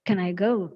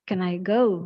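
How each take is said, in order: No difference in how they are said.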